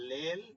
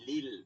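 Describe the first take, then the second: First: The vowel is an open 'eh' sound. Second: The vowel is a close 'ee' sound. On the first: The speaker calls it wrong. "লেল তো হবে না" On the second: The speaker calls it right. "হবে কি লিল"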